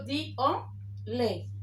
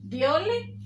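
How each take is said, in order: First: "di, o, le" in separate pieces with pauses; word split into parts. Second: Said in the usual way. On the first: Shown as a demonstration. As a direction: break "diole" apart as di... o... le. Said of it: "entonces esta se forma". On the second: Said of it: "Se une la palabra".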